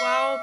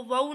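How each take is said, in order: First: वाव with long open aa gliding to o; correct long form. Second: वाव squeezed into a short wau; wrong short form. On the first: Teacher showing the correct letter, long open waao. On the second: Teacher showing what to avoid, short wau. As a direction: clip वाव into a quick wau. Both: Shown as a demonstration. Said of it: "इसको वाव नहीं पढ़ना है".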